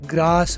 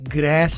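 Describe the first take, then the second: First: The vowel is a long open 'ah' sound. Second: The vowel is a short flat 'a' sound. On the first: "ग्रास British है" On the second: "ग्रेस American है"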